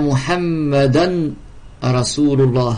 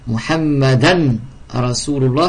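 No difference in how they are said.

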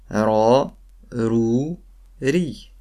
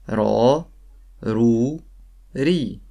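Both takes have the same delivery.

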